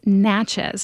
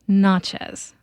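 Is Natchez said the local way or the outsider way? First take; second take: local; outsider. First: It is said the way longtime locals say it. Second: It is said the way a newcomer says it. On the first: The speaker calls it right. "those of us who've been around longer know it's Natchez" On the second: The speaker calls it wrong. "not Natchez, but it was an honest mistake"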